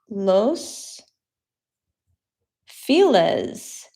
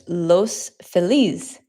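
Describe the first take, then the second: First: The name is said with an English pronunciation. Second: The name is said with a Spanish pronunciation. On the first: This is how locals usually say it. "is what people say" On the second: This is the original Spanish form. "in Spanish it's"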